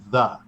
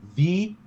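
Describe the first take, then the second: First: The word is said in a casual, conversational way. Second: The word is said in a formal, announcer-like way. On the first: The speaker calls it right. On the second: The speaker calls it wrong.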